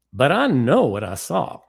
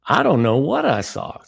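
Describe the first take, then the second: First: A mild impression of a Southern friend who is certain; a light Southern accent, higher and louder. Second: A put-on Southern accent, louder and higher. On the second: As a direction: impersonate a Southern friend insisting. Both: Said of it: "my bad impression of Ricky".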